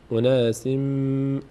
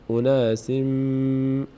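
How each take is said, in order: Both takes have the same delivery.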